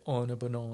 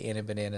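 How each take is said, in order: First: It is said in an English accent. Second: It is said in an American accent. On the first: "the English people say" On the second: "the Americans say"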